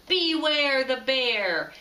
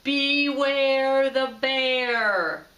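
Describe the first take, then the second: First: Slow, loud growled warning; drawn-out bear call, louder; growly bear voice closer. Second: Very slow, loud, growled boom; a real bear booming out at midnight; booming growly bear. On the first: Tacky's story bear coming closer, slow and loud. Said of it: "The voice came closer". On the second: The bear waking the penguins, booming slow and loud. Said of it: "a great growly voice boomed out". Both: A narrator's reading.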